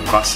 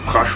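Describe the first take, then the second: First: The name ends with an 's' sound. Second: The name ends with a 'sh' sound. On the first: The speaker calls it right. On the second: The speaker calls it wrong.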